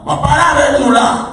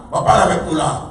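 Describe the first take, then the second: First: Raised preaching voice, higher; loud urging. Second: Said in the usual way. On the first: Real, not acted. Preacher raising voice to youth in church, loud urging. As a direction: push it out to the church.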